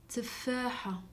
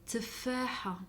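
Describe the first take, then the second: The two takes are said the same way.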